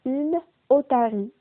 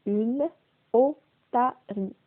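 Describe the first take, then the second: First: Said in the usual way. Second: "otarie" slowly split as o, ta, rie; syllable by syllable. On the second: Shown as a demonstration. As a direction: sound out "Une otarie" with every syllable detached. (« Une otarie » lentement, syllabe par syllabe) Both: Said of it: "On commence par le premier mot".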